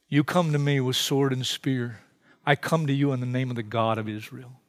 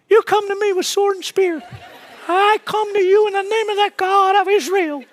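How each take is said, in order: First: It is said in a solemn adult voice. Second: It is said in a teenager's voice.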